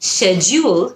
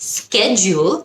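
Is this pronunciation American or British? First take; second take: British; American. First: It is said with a British pronunciation. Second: It is said with an American pronunciation. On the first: "হলো British" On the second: "হলো American"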